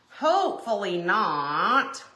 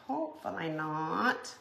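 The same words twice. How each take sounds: First: "hopefully not" drawn out slowly with a rise on "hopefully"; hopeful emphasis. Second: "Hopefully not" dropped to a soft murmur, rising on "Hopefully"; quiet echo. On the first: Hoping the iron stays untouched, slow rising "hopefully". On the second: Echoing her own hope to viewers, soft murmured "Hopefully". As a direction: repeat "Hopefully not" under the breath. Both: Shown as a demonstration.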